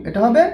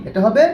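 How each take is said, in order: Both takes have the same delivery.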